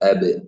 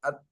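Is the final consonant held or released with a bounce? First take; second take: released; held. First: The final consonant is released with a slight bounce. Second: The final consonant is held without any release. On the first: The speaker calls it right. "ഇതാണ് റിലീസ് ചെയ്യുന്നത്" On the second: The speaker calls it wrong. "മഖ്റജിൽ തന്നെ വെക്കുകയാണെങ്കിൽ"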